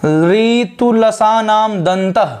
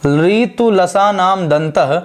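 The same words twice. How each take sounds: First: ऋतुलसानाम दंतः drawn out very slowly, falling at the end; very slow recitation. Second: ऋतुलसानाम दंतः repeated very slowly, ending with a rise; slow recitation, rising. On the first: Teacher slowly reciting the fourth sutra for the class. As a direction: chant the sutra syllable by syllable. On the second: Teacher repeating the sutra slowly with a rising end. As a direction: drag the sutra out, lift the end. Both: Shown as a demonstration. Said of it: "और इसका नाम क्या है?".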